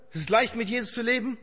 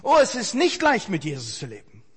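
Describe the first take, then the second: First: Said lightly, as if it were obvious; preacher mocks the easy-faith claim to the congregation, in a light ironic tone. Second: Sincere admission. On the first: A breezy false assurance. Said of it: "Darf ich, darf ich". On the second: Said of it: "Habe ich auch noch nie kennengelernt". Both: Shown as a demonstration.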